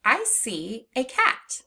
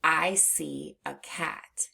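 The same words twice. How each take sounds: First: "a" said as long ay, slow; slow sentence with "a" as ay. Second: "a" said as a short uh, slow; slow sentence with "a" reduced to uh; schwa in "a". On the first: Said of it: "For example". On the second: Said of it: "we would say". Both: Shown as a demonstration.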